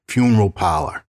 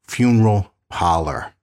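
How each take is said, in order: First: It is said in his everyday regional accent. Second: It is said with every sound fully pronounced. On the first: "people are incessantly mocking the way I say it" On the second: "I'm going to fully pronounce the word funeral parlor"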